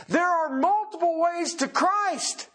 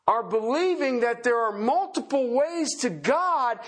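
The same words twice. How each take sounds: First: Multiple punched high and slow; stress on multiple. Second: Said in the usual way. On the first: Shown as a demonstration. Preacher correcting his flock, hitting multiple. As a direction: lean hard on multiple, then drop.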